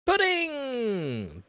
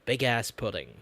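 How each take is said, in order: First: Excited. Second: Said in the usual way. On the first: Real, not acted. Delighted shout at the pudding.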